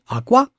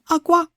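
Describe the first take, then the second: First: The first syllable is low, the second high. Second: Both syllables are said on a high pitch. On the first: The word means egg. "low in the first syllable and high on the second one" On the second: The word means cry. "both syllables are high"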